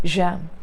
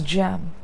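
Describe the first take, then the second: First: The word begins with a j sound. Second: The word begins with a j sound.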